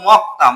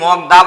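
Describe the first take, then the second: First: The second syllable starts with a tensed, hard consonant. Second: The second syllable starts with a plain, soft consonant. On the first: The speaker calls it right. "পরিবর্তিত রূপটা উচ্চারণ করব মক্তা" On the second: The speaker calls it wrong. "এটাকে কি মগদা বলবো? না"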